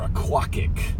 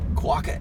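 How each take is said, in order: First: The name ends with a k sound. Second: The name ends on a vowel sound.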